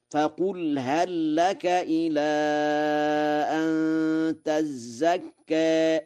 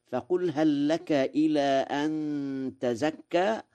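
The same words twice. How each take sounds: First: High, very slow chant with a doubled zay in تزكى; Warsh reading. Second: Said in the usual way. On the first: Shown as a demonstration. Teacher chanting تزكى the Warsh way with a doubled zay. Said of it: "بتشديد الزاي في تزكى". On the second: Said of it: "قوله تعالى".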